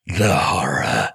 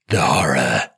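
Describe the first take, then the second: First: Low, slow, crying dread; mock sobbing horror. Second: Low dramatic gasp of dread; mock horror. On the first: Parent mocking bedtime drama, slow low mock sob. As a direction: drag it out with a fake sob. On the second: Parent mocking bedtime drama, low hammed-up dread. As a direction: intone it like a doomed film hero.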